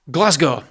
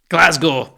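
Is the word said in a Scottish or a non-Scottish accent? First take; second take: non-Scottish; Scottish. First: It is said in the speaker's usual accent. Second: It is said in a Scottish accent.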